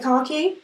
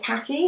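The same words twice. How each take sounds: First: Khaki is said with a British accent. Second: Khaki is said with an American accent.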